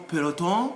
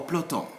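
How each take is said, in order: First: "peloton" in three syllables, pe-lo-ton; optional e pronounced. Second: "peloton" in two syllables, plo-ton; optional e dropped. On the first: Teacher giving the first of two options, e kept. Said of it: "It's up to you to say". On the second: Teacher giving the second option, e dropped. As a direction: run p into l in "peloton". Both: Shown as a demonstration.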